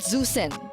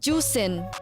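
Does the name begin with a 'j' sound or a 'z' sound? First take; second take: z sound; j sound. First: The name begins with a 'z' sound. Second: The name begins with a 'j' sound. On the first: The speaker calls it wrong. "So it's not Zusin" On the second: The speaker calls it right. "it's pronounced as Juicing"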